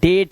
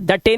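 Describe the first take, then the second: First: It is said as one syllable. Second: It is said as two syllables. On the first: The speaker calls it right. "डेट है" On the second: The speaker calls it wrong. "डटे नहीं है"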